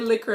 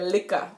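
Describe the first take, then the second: First: The word ends with an r sound. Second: The word ends with an open ah sound. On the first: This is the form not used in Jamaica. "We don't say liquor in Jamaica" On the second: This is how it is said in Jamaica. "we say liquor. L I K K A"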